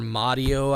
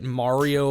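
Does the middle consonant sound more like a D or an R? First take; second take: D; R. First: The middle consonant sounds like a D. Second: The middle consonant sounds like an R. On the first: "M A D D I O" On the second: "M A R I O"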